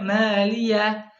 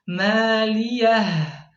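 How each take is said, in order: First: The final H is weak or silent. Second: The final H is pronounced clearly. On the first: The speaker calls it wrong. "H-nya tidak terdengar atau lemah" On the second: The speaker calls it right. "Seharusnya dibaca jelas"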